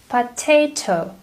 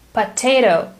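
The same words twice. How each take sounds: First: The second t is a crisp t. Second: The second t sounds like a soft d. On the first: "British English sounds completely different" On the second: "compare American to British accent"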